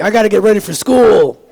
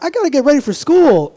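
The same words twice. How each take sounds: First: Louder, menacing take on the same line; the gun-aisle kid saying it with a threat; armed tough kid. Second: Put-on high, bright kid voice; a schoolkid excited about class; eager kid. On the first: Acted. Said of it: "this side's like". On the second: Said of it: "This side's like".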